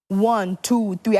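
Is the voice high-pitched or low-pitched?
low-pitched. It is said in a lower-pitched voice.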